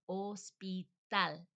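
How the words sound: It is said with a Spanish pronunciation. "in Spanish it sounds more like hospital"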